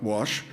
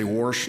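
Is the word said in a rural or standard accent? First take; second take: standard; rural. First: The word is said in a standard accent. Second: The word is said in a rural local accent. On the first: This is how the relatives do not say it. "not wash" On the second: This is how the rural relatives say it. "They say wash"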